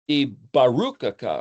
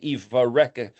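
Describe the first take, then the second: First: The second consonant is a B sound. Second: The second consonant is a V sound. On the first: "the word blessing is Bet Resh Kaf. So we could say" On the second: "I've always heard people say"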